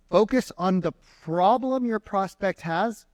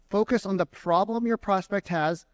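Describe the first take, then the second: First: Focus on the problem your prospect has said slowly, higher; slow and emphatic. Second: Said in the usual way. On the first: Shown as a demonstration. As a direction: lean on each word, slowly.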